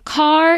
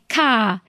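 First: The final R sound is clearly pronounced. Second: The final R sound is dropped entirely. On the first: "instead of saying car" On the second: "we want to say words that don't use the R's"

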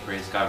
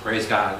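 First: It is said slowly and quietly. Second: It is said louder, at moderate volume.

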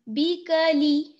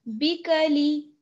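No difference in how they are said.

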